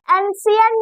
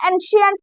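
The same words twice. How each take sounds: First: एंशिएंट read with an s sound, ensient; teacher shows the wrong s-sound reading of एंशिएंट; wrong reading shown. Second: एंशिएंट said with a clear sh, enshient; teacher models the sh sound in एंशिएंट; sh sound shown. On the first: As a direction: show how एंशिएंट is not said. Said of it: "एंशिएंट नहीं पढ़ेंगे इसको". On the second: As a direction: stress the sh in एंशिएंट. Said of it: "शीन की आवाज यहाँ पे निकलेगी". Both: Shown as a demonstration.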